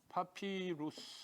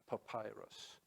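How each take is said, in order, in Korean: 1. 두 번째 음절은 'ee' 모음으로 'pi'라고 발음해요. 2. 두 번째 음절은 'eye' 모음으로 'pai'라고 발음해요.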